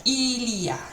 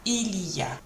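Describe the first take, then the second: First: All three syllables are pronounced in full. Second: The same.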